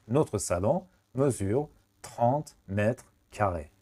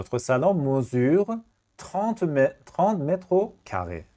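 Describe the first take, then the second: First: Slow, whole-sentence model read; slow teacher read; very slow full sentence. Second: Each word drawn out slowly; slow dictation. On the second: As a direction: dictate trente mètres carrés slowly. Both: Shown as a demonstration.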